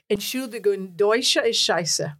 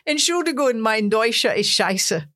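First: German-accented line retold at an ordinary level; toned-down German accent; misheard German accent. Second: Put-on louder, German-accented stage announcement; earnest attempt at a German accent; best German accent. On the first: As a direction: replay it in a German accent, slowing at the end. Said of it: "what they must have heard was". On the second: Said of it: "in my, my best German accent".

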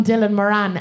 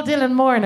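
First: "Dylan Moran" with the surname stressed on its second syllable; unfamiliar pronunciation. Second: "Dylan Moran" with the surname stressed on its first syllable; usual pronunciation. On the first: Irish comic trying the English version of Dylan Moran, unfamiliar pronunciation. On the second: Irish comic naming Dylan Moran her own way, usual pronunciation. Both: Shown as a demonstration. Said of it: "it feels weird in my mouth".

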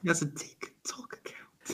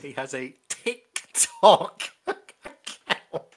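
First: Whispered ticking clock voice; slow whisper, ticking each syllable; clock impression. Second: Slow, laughing ticking clock voice; clock impression. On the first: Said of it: "It's also your Boris Johnson impression". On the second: Shown as a demonstration. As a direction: tick out each syllable, slowly. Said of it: "that's my clock impression".

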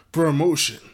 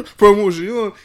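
First: "Promotion" loud and punched in plain English; plain English pronunciation. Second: "Promotion" in a high, shouted French accent. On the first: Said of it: "I can't say it like that". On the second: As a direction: keep the loud bonjour tone, hammed-up French. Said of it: "And then keep that". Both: Shown as a demonstration.

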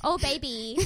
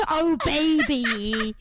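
First: Higher put-on lovey coo; hammed-up sweetheart pet name; romantic couple. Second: Loud, high, very drawn-out mock swoon; mad romantic couple. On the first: Pretending to be a romantic couple, mock lovey-dovey. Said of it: "pretending to be a romantic couple". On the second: Teased for sounding mad as a romantic couple, hammed-up. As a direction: stretch it out hard, hammed-up and crazed. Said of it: "you're also saying it quite mad".

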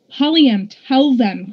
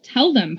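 First: Higher, louder plea; pressing, mildly alarmed appeal; urgent cry. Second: Mildly puzzled challenge; understated incredulous query; demanding. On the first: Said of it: "cried Daja". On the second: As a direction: throw it back as a demanding question. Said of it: "Polly M demanded". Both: A narrator's reading.

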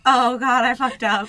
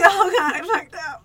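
First: Mildly high, louder mock dismay; raised nervous voice. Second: Very high mock-panicked whine; voice gone up. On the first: Realizing she botched the greeting, voice a bit raised. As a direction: let slight panic lift the pitch. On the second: Storyteller replaying her panic at meeting the date, squeaky. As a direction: squeak it like a laughing near-sob. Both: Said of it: "Your voice went up".

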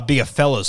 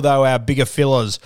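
First: Said in the usual way. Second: Slipped into a Kiwi accent; a touch of New Zealand vowels on "fellas". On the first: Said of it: "sorry, I sounded a bit Kiwi". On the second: Real, not acted. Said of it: "I sounded a bit Kiwi there".

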